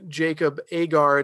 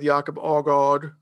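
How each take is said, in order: First: The name is said with an American pronunciation. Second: The name is said with a Danish pronunciation. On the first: The speaker calls it wrong. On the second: The speaker calls it right.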